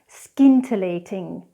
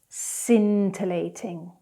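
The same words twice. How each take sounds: First: The c is pronounced as a k sound. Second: The c is silent with no k sound. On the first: The speaker calls it wrong. "the incorrect pronunciation first" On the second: The speaker calls it right. "then I'll do the correct pronunciation"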